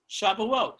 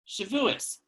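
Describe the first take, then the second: First: The word ends with a t sound. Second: The word ends with an s sound. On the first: This is the modern Hebrew pronunciation. "Shavuot is the more modern Hebrew pronunciation"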